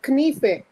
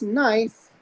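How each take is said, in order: First: Knife with the k sounded, as k-nee-feh; old pronunciation of knife. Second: Said in the usual way. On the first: Shown as a demonstration. Teacher shows the class how it used to be pronounced, knife as k-nee-feh. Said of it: "It used to be pronounced as". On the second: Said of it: "When it became pronounced as".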